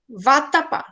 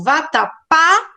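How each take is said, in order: First: "vatapá" with strong "ta" and weak "pa"; stress on middle syllable. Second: "vatapá" with a strong, rising final "pá"; stress on last syllable. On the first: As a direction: shift the stress of "vatapá" onto "ta". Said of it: "aí o tá seria mais forte". ("vatapá" com ênfase no "ta") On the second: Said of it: "aí o tá seria mais forte. Mas quando eu digo". ("vatapá" com o "pá" mais forte) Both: Shown as a demonstration.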